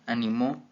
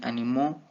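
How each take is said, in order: First: The stress is on the middle syllable. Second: The stress is on the last syllable. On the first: "En grave" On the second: "en aguda"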